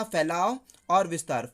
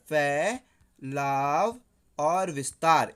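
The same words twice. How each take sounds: First: Said in the usual way. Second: Very slow, drawn-out syllables in a lower pitch; slow dictation. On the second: Shown as a demonstration. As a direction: dictate it syllable by syllable for students to note. Teacher dictates answer for memorising. (धीरे-धीरे खींचकर लिखवाने का लहजा)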